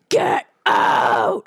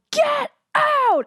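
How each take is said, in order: First: Lowered-voice shout. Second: Shrill, very high shriek of get out; screaming at an intruder, top of her range. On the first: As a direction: drop the voice and roar it. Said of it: "I'm lowering my voice". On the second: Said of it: "And I'm just screaming". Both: Retold or imitated.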